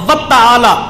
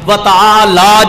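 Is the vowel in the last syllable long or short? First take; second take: short; long. First: The final vowel is clipped short. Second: The final vowel is drawn out long. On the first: The speaker calls it wrong. "ये भी गलत है" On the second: The speaker calls it right. "व तआला को थोड़ा सा लंबा करना है, जो मैंने कहा है"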